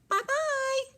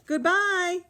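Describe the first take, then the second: First: It is said in a high, squeaky voice. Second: It is said in a middle-sized voice.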